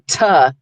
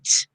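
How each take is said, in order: First: The t is followed by a vowel sound. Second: The t is said with no vowel after. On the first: The speaker calls it wrong. "you don't say ta" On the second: The speaker calls it right. "you say t"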